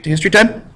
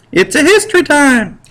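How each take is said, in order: First: Said in the usual way. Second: Much higher, game-show announcer cry; teacher hyping the class for history time; excited announcement. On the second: Acted. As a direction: announce it like a kids' show host.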